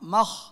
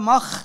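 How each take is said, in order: First: The final consonant flows on softly without stopping. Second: The final consonant is cut off abruptly and tensely. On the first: "তাহলে রিখোয়া" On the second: "মাখ সিদ্ধা"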